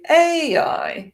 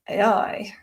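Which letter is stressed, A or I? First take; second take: A; I. First: The stress is on the first letter. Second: The stress is on the last letter. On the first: The speaker calls it wrong. "we don't say" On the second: The speaker calls it right. "abbreviations are generally stressed on the final syllable"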